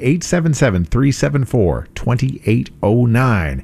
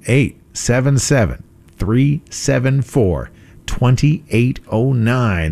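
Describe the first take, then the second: First: The number is said at a faster pace. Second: The number is said at a slower pace.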